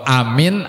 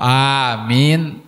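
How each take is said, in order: First: The first vowel is said short. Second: The first vowel is said long. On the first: It means safe. The speaker calls it wrong. "Kalau amin aman" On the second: It means grant it. The speaker calls it right. "kalau amin kabulkanlah"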